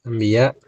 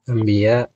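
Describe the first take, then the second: No difference in how they are said.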